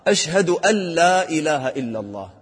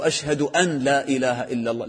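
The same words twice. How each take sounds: First: "أشهد أن لا" pronounced "أشهدُ ألّا"; correct merging. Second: "أن لا" with a clear n before "لا"; "أشهد أن لا" said as two words, "an la"; mistaken unmerged n. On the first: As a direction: swallow the n of "أن" into "لا". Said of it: "هذا إدغام". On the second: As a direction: sound the n of "أن" separately. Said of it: "لا، هذا إدغام". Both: Shown as a demonstration.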